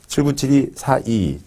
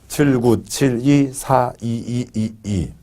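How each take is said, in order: First: The phrase is read quickly without lingering. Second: The phrase is read slowly and drawn out. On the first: "빨리 읽는다" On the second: "천천히 읽는다"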